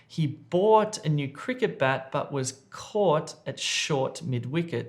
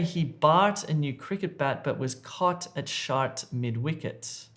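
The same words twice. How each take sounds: First: The vowels in bought and caught sound like 'or'. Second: The vowels in bought and caught sound like 'ar'. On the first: The speaker calls it right. "So this is correct" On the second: The speaker calls it wrong. "Don't say"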